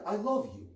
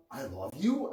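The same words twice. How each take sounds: First: Kind and tender. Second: I love you with the tune rising on you like a question. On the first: Husband telling his wife he loves her, tender and kind. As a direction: say I love you tenderly, as a genuine declaration. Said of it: "when said with kindness and tenderness". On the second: Spouse doubting the other's love, a questioning rise. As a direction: ask I love you, lifting the pitch on you. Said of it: "as a question mark?". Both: Shown as a demonstration.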